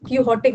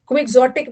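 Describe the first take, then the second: First: The word begins with 'kee' and an 'h' sound. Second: The word begins with a 'kw' sound and 'ks'. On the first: "इसको कीहोटिक भी पढ़ सकते हो" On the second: "क्विक्सोटिक भी पढ़ सकते हो"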